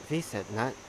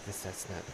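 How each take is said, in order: First: The middle consonant is a t sound. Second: The middle consonant is an s sound. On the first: "In Thai, it's pronounced Visetnut" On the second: "they always call it Visesnut"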